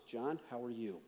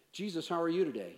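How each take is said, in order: First: Low, soft, with "you" stressed; question turned back. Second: Brisk, breezy greeting; quick casual question. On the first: Jesus answering a question with a question, low and soft. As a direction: turn it back quietly, leaning on "you". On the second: Man greeting Jesus with small talk, quick and casual. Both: Pretend.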